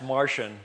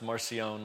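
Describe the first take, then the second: First: The name sounds like the word Martian. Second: The name is said with a French-sounding pronunciation. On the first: "vulgar Latin, it's Martian, but that sounds like he came from outer space" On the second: "like he was like one of the Three Musketeers, and it's French"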